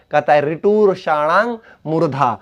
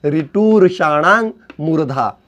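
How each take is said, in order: First: Said in the usual way. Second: Slow, careful sutra chant; slow recitation. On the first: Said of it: "teacher recites sutra". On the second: Shown as a demonstration. Teacher recites the sutra slowly for students. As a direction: spell out each word of the sutra. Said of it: "teacher repeats sutra slowly".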